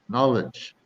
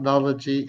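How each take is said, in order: First: No extra syllable is added at the end. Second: An extra syllable is added at the end. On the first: The speaker calls it right. "it's just knowledge" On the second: The speaker calls it wrong. "it's not knology"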